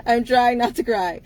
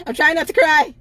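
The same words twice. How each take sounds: First: Calmer again, tears held back; steady yourself but keep a hint of crying; steadier through tears. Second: Real crying laugh, voice breaking and louder; fighting tears. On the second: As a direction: push the words out through tears, half laughing. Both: Real, not acted.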